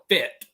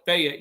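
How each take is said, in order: First: The name is said with one syllable. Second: The name is said with two syllables. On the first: "you call it Fit" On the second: "you don't call it Fayette"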